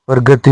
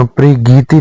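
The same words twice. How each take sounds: First: प्रगति with short ga; short a after g in प्रगति; correct form. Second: प्रगीति with long gee; wrong form. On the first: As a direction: say pra-ga-ti for प्रगति. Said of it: "होता है". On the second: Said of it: "नहीं होता". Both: Shown as a demonstration.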